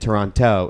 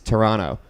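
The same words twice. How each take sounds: First: It is said the way outsiders pronounce it. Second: It is said the way locals pronounce it. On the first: The speaker is not really from the city. The speaker calls it wrong. "They don't pronounce it Toronto" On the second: The speaker is really from the city. The speaker calls it right. "It's Toronto"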